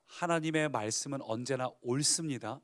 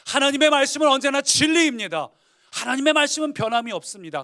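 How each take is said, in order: First: Said in the usual way. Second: Much louder, higher preaching declaration; the preacher proclaiming God's word to the congregation; ringing proclamation. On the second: Real, not acted. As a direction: preach it out at full force. Preacher restating the truth louder.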